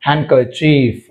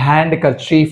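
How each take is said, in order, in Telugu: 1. n తర్వాత d శబ్దం ఉచ్చరించబడదు. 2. n తర్వాత d శబ్దం ఉచ్చరించబడుతుంది.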